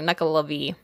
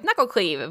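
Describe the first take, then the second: First: The name ends with an 'of-ee' sound. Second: The name ends with a 'cleave' sound. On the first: The speaker calls it right. "I had to like look up how to pronounce it" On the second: The speaker calls it wrong. "I thought it was Knuckle... Cleave, which there's no C"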